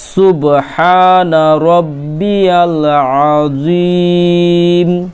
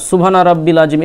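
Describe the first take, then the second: First: The middle word is said as longer 'rabbiyal'. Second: The middle word is said as short 'rabbil'. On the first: The speaker calls it right. "তাহলে কি হলো" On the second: The speaker calls it wrong. "এরকম অনেকে বলে কিন্তু এরকমটা নয়"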